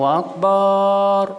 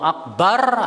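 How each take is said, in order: First: The last syllable is drawn out long. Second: The last syllable is kept short. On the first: It means a big drum. The speaker calls it wrong. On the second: It means the greatest. The speaker calls it right.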